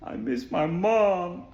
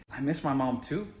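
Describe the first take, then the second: First: Slow, drawn-out mock sob; put-on tearful whine, dragged out slowly; imitated crying child. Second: Said in the usual way. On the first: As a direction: imitate a child wailing for mom, stretched out. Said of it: "starts crying. She's like".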